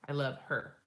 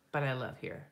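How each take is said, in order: First: Said in the usual way. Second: "her" slipped into "here"; slipped pronunciation. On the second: Real, not acted. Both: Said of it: "Her, here, her, here".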